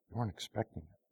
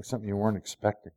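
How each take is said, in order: First: Much softer, almost whispered; hushed. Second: Said in the usual way. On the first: Acted. Preacher to congregation, hushed and intimate. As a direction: drop it to a hush.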